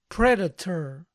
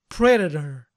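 First: The t is pronounced as a crisp, clear t. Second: The t is softened, sounding more like a d.

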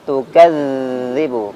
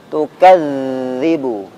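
No difference in how they are said.

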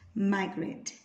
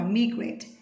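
First: The first vowel sounds like "eye". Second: The first vowel sounds like "ee". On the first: The speaker calls it right. "phiên âm của chúng ta sẽ là I" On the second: The speaker calls it wrong. "từ này chúng mình hay đọc sai lắm, chúng mình đọc là migrate"

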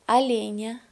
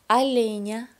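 Both takes have the same delivery.

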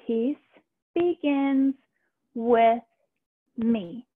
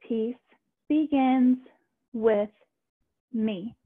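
No difference in how they are said.

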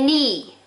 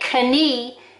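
First: The K at the start is silent. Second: The K at the start is pronounced. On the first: The speaker calls it right. "you say knee, silent letters" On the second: The speaker calls it wrong. "You don't say knee"

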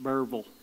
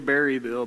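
First: The name is squeezed into two syllables. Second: The name is said in full with three syllables. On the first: This is the local way of saying it. "Only people from Burville know what I'm saying" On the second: This is the official form of the name. "It's actually Berryville"

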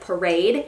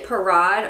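First: The word is given an English pronunciation. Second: The word is given a French pronunciation.

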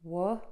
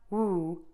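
First: The vowel is said with relaxed, less puckered lips. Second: The vowel is said with tightly puckered lips. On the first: The speaker calls it right. "it's wuh" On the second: The speaker calls it wrong. "It's not woo"

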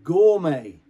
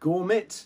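First: The final T is silent. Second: The final T is pronounced. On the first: The speaker calls it right. "It's pronounced gourmet. Gourmet, because the French don't pronounce the T at the end" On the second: The speaker calls it wrong. "So this one is pronounced not, I don't know, gourmet"

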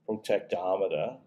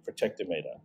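First: The word is said with a North American pronunciation. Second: The word is said with an Australian pronunciation. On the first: "I think you guys in North America, I think you'd be inclined to say protectometer" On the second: "if you want an Australian accent... So this would be protectometer"

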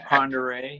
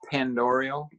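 First: The name ends with a 'ray' sound. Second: The name ends with a 'rial' sound. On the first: The speaker calls it right. "but it's Ponderay" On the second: The speaker calls it wrong. "So it looks like Pandorial"

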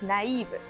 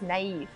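First: The word is said with a Japanese accent. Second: The word is said with an English accent. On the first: "So in Japanese accent" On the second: "But in English accent"

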